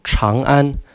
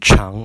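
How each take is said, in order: First: The first consonant is a CH sound with R merged. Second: The first consonant is a plain English CH sound. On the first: The speaker calls it right. "pronounced with a road with a C H and an R combined" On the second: The speaker calls it wrong. "instead instead of Chang"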